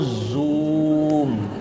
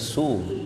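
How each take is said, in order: First: The word starts with a z sound. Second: The word starts with an s sound. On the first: "yang kalau online on oh Zoom" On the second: "Ternyata sum"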